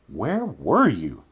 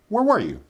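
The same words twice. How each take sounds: First: The sentence is spoken at a slow pace. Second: The sentence is spoken at a quick pace.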